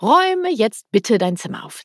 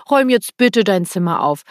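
First: Said in the usual way. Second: Louder, pressing demand dressed up with bitte; demanding order. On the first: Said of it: "Das Wörtchen bitte". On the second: Retold or imitated. Parent demands the child tidy the room, louder and pressing. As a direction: make the polite word sound like a command. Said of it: "Es ist und bleibt für mich eine Forderung".

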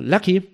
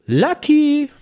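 First: Hoher, lauter Namensruf mit steigendem Ton; aufgeregter Anruf. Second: Sehr hoher, lauter, gezogener Namensruf; aufgeregter Schrei. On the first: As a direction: aufgeregt den Kumpel am Telefon anrufen, noch kurz. (aufgeregter Zuruf) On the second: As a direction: den Namen aufgeregt in die Höhe schreien. (aufgeregtes, schrilles Rufen) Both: Retold or imitated. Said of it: "sprach er ganz aufgeregt".

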